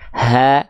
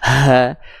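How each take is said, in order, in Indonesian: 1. Bunyi h dibuat di tenggorokan. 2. Bunyi h didorong dari dada. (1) "tumpu titik tumpunya di, di pangkal tenggorokan kita" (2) "jangan dilafalkan ditumpu di sini"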